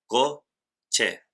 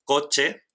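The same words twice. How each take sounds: First: "co, che" as two separate syllables; split into syllables. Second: Said in the usual way. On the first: Shown as a demonstration. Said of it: "dos sílabas". ("co, che" separado en sílabas, con pausa) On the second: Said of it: "Por ejemplo".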